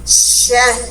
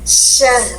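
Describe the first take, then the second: No difference in how they are said.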